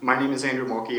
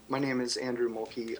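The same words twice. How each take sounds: First: It is spoken at a louder volume. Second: It is spoken at a quieter volume. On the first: The speaker calls it right. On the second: The speaker calls it wrong.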